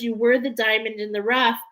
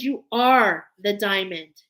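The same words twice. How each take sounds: First: "were" stressed as a thing of the past. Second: "are" punched as the correction; stress on are. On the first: Reader encouraging viewers about their past, "were" emphasised. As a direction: lean on "were" to set up a contrast. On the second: Reader correcting herself to affirm viewers, "are" emphasised. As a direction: hit "are" firmly, insisting it is true now. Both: Real, not acted.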